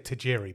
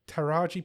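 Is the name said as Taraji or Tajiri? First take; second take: Tajiri; Taraji. First: The name is said as Ta-JEE-ree. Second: The name is said as Ta-RAH-jee. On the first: The speaker calls it wrong. "I want to say Tajiri, but it's not" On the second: The speaker calls it right. "T- T- Taraji P Henson"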